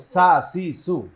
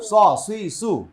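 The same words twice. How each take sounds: First: সা, সি, সু light and flat-tongued; thin sin. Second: স, সি, সু thick and rounded, raised voice; heavy sad. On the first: Teacher leading the class, সা, সি, সু thin and light. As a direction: keep every s in সা, সি, সু thin. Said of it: "পাতলা হবে". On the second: Teacher leading the class, স, সি, সু full and heavy. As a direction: make every s in স, সি, সু emphatic. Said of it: "সদ মোটা". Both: Shown as a demonstration.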